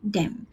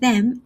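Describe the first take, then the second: First: It begins with a hard d sound. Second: It begins with a soft th sound. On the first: The speaker calls it wrong. "I would say them" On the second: The speaker calls it right. "instead of saying them"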